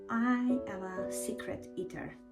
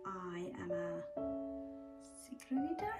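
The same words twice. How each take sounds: First: It is said loudly. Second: It is said quietly.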